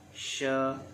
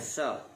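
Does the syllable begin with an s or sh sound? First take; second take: sh; s. First: The syllable begins with an sh sound. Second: The syllable begins with an s sound. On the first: The speaker calls it right. "Shin makhrajnya adalah di tengah lidah" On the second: The speaker calls it wrong. "jangan sa"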